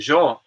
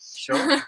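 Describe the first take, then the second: First: The word starts with a 'y' sound. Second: The word starts with a 'sh' sound. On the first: "other parts of uh, Latin uh, in uh, Spanish speaking is like yo" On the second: "here you say yo with the J, like uh, sh, sho"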